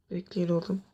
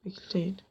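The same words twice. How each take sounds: First: Said in the usual way. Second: Whispered repeat. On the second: Real, not acted. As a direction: whisper it again. Telling friends to wait.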